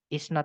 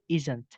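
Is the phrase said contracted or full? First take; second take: full; contracted. First: It is said as two full words. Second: It is said as one contracted word. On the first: The form used in writing. "Is not itu isn't" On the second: The quicker form used in speaking. "biar cepat itu biasanya disingkat jadi isn't"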